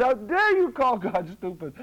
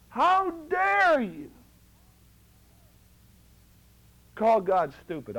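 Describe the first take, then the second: First: A touch of indignation, near normal pace; quick retelling of How dare you, mildly raised; retold rebuke. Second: High, drawn-out How dare you, louder; slow, stretched outrage on How dare you; indignant rebuke. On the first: Preacher retelling the rebuke to one man, lightly indignant. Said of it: "I said". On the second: Retold or imitated. Preacher rebuking a self-doubting brother, indignant and slow. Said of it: "I said it that way to one man".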